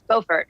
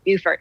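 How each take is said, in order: First: It is said the North Carolina way. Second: It is said the South Carolina way. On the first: The speaker is from North Carolina. "if you're from North Carolina, it's, Bo- it's Beaufort" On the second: The speaker is from South Carolina. "If you're from South Carolina, they call it Beaufort"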